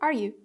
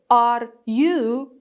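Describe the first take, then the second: First: The words are said lightly and unstressed. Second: The words are said strongly and stressed. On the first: The speaker calls it right. "Like this, because it's something normal" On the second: The speaker calls it wrong. "I don't say, are you? Okay, is wrong"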